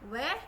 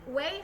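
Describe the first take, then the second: First: The vowel is a pure, steady 'e' sound. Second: The vowel glides from 'e' toward 'ee'. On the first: The speaker calls it right. "We, hindi way" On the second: The speaker calls it wrong. "hindi way"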